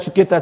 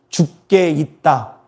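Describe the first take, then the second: First: It is said fast, syllables run together. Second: It is said slowly, each syllable apart.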